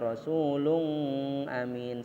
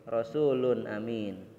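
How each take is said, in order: First: The n sound is nasalized and held. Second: The n sound is clear with no nasal hum. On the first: The speaker calls it wrong. "dengung. Misalnya rasulun amin, salah" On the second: The speaker calls it right. "tapi rasulun amin"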